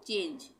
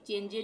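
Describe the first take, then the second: First: The word ends on the consonant. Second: An extra vowel follows the final consonant. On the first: The speaker calls it right. "ई का उच्चारण बंद हो जाएगा" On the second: The speaker calls it wrong. "यहाँ पे भी चेंजे नहीं पढ़ेंगे"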